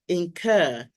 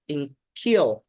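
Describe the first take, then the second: First: The second syllable sounds like 'cur'. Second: The second syllable sounds like 'cure'. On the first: The speaker calls it right. "it is incur" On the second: The speaker calls it wrong. "Sometimes people mispronounce this word as incure"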